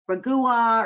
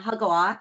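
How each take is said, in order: First: The word begins with an English R sound. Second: The word begins with a breathy H sound. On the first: The speaker calls it wrong. "if you're English, like I'm American, you want to say Ragua" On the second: The speaker calls it right. "It's actually pronounced Hagwa"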